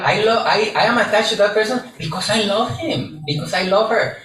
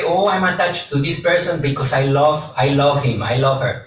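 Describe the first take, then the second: First: Higher, faster imitation of someone pleading "I love him"; hammed-up lover making excuses; pitched-up mocking quote of a clingy person; mock lovesick person. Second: Lightly voiced attached lover, close to own voice; a hint of someone justifying themselves; mildly imitated "I love him" excuse; quoting a typical person. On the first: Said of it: "who has heard that one". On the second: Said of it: "we sometimes say".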